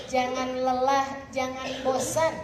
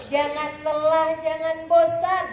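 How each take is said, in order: First: Said in the usual way. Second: Louder and slower, each phrase pressed home; slow, emphatic exhortation. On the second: Shown as a demonstration. Preacher urges the women not to tire, slow and loud. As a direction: Jangan lelah, jangan bosan said slowly and loudly, every word weighted. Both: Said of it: "repeated with rising force".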